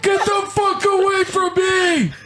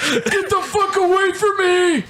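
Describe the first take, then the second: First: Put-on high, slower shrieking old man; old man yelling. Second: Put-on high shrieking old man; old man yelling. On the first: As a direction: drag out the shriek, old geezer. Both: Playing an old person.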